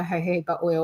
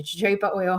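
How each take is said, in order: First: "jojoba" with H for both Js; jojoba with H sounds. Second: "jojoba" with both Js as in joke; jojoba with J sounds. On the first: Host accepting both answers, "jojoba" said ho-HO-ba. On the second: Host accepting both answers, "jojoba" said juh-JOE-ba. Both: Shown as a demonstration. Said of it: "however you want to say it".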